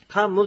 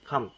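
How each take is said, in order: First: The final m is clearly pronounced. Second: The final m is barely audible. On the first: The speaker calls it wrong. "カムってはっきり言わないんですね" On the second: The speaker calls it right. "カにちっちゃい無がつきます"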